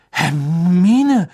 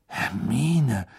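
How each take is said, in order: First: Loud, drawn-out name, rising high then falling; alarmed attempt to hold her back; zaghaft. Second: Hushed awe on a drawn-out name; verdutzt und beeindruckt. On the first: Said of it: "sagte Ron zaghaft". (zaghaft mahnend, lang gezogen) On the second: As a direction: say it stunned, half admiring. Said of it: "verdutzt und beeindruckt zugleich". (verblüfft und beeindruckt, gedehnt) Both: A narrator's reading.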